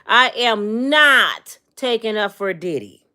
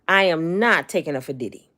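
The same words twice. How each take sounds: First: It is said at a louder, raised volume. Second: It is said at a normal, softer volume.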